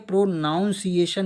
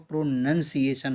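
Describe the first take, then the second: First: The second syllable sounds like 'noun'. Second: The second syllable sounds like 'nun'. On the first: The speaker calls it wrong. "ये प्रोनाउंसिएशन नहीं होता है दोस्तों" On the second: The speaker calls it right. "प्रोनंसिएशन होता है"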